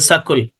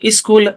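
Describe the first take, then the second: First: An extra vowel separates the s and k. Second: The s and k are said together. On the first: The speaker calls it wrong. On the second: The speaker calls it right.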